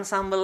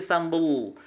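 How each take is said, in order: First: Said in the usual way. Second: "sambel" with a dark, held l; thick final l. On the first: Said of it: "Bukan sambel lagi". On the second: Shown as a demonstration. Teacher correcting everyday habit, thick-l "sambel". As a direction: sink into the l of "sambel". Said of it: "tapi sambel".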